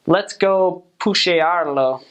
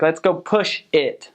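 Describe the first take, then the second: First: "pushearlo" said as a Spanish verb, push plus Spanish -ear-lo, slowed; Spanglish verb. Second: Said in the usual way. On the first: Retold or imitated. Imitating northern Mexicans' Spanglish, saying "pushearlo" slowly. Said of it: "They'll be like".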